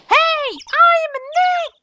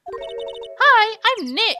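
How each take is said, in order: First: It is said louder than before. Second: It is said at a normal, quieter volume.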